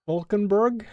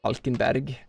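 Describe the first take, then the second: First: "Falkenberg" said English-style, higher, as a question; questioning English pronunciation. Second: "Falkenberg" the Norwegian way, plainly stated; Norwegian pronunciation. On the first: Checking a name from chat, "Falkenberg" in questioning English pronunciation. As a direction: query "Falkenberg" with an English "-burg" ending. Queries name, then gives Norwegian form. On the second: Showing chat the Norwegian form, "Falkenberg" in Norwegian pronunciation. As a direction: say "Falkenberg" with a Norwegian "-bærg" ending. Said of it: "we would write it".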